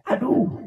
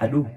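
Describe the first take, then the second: First: Aduh tinggi yang tiba-tiba; teriakan kesakitan. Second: Said in the usual way. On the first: Retold or imitated. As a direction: jerit kecil karena sakit. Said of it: "dia teriak". ("Aduh" diteriakkan tinggi karena kesakitan) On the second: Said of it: "Ketika dia teriak".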